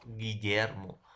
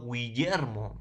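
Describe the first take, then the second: First: Guillermo with a silent u, slowly, "Gi-yer-mo". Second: Guillermo with the u sounded, "Gwi-yer-mo"; mispronounced Guillermo, "gwi" for "gi"; u wrongly sounded. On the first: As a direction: say Guillermo as "Giyermo", hard g, no w glide. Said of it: "digo Guillermo". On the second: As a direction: say Guillermo as "Gwiyermo", voicing the u. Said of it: "No digo Guillermo". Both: Shown as a demonstration.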